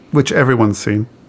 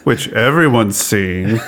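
First: It is said with only mild sarcasm. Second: It is said with heavy, obvious sarcasm.

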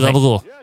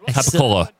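First: It is shortened, voiced, ending in 'gool'. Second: It is said in full, ending in 'cola'. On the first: "it's easier to say gabagool"

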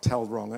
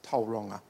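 First: It is said with an anglicized pronunciation. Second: It is said with a Maori pronunciation. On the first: The speaker calls it wrong. "Tauranga is not Tauranga" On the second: The speaker calls it right. "it's Tauranga"

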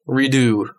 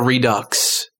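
First: The word ends in a vowel, no x sound. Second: The word ends with a clear x sound.

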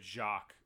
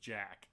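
First: The name is pronounced the French way. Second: The name is pronounced the English way. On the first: A French speaker said it. "he's foreign... I think it's French of some sort... he goes" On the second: Someone else said it. "and then someone else goes"

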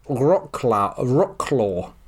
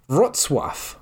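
First: The name is pronounced as English spelling suggests. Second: The name is pronounced the Polish way. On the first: The speaker calls it wrong. "an English speaker would say Rocklaw" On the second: The speaker calls it right. "it's actually pronounced Wrocław"

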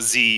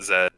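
First: The letter is said the American way, zee. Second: The letter is said the British way, zed.

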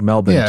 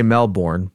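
First: Melbourne is said with an Australian pronunciation. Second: Melbourne is said with an American pronunciation. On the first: "somebody from Australia was pronouncing it Melbourne ... it sounded like Melbourne to me" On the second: "I would say Melbourne"

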